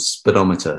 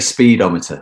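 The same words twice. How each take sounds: First: The first syllable 'spee' is not stressed. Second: The stress falls on the 'spee' syllable.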